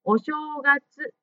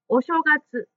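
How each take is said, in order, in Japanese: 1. 'u'の音ははっきり発音され、長いです。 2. 'u'の音は短くて弱いです。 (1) "うをしっかり発音しましょう" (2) "お正月に聞こえたので"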